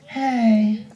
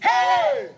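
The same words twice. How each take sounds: First: It is said flatly, with little energy. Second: It is said loudly, with joyful energy.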